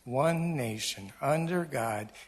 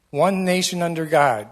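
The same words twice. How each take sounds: First: There is a pause after 'nation'. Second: It is said as one phrase, no pause.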